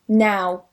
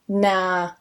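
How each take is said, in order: First: The vowel is the gliding diphthong ow. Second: The vowel is a flat ah sound.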